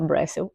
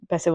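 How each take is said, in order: First: The name is said with an r after B. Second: The name is said without an r after B. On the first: The speaker calls it wrong. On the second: The speaker calls it right.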